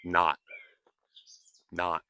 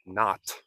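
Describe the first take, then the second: First: "not" cut off with a silent T; unreleased final T. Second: "not" with a crisp, popped T; released final T. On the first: Teacher modeling natural "not", low, with T held back. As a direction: stop "not" short, tongue holding the T. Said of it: "I am saying not". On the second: Teacher showing what not to say, "not" with hard T. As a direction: end "not" on a sharp, audible T. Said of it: "I am not saying not". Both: Shown as a demonstration.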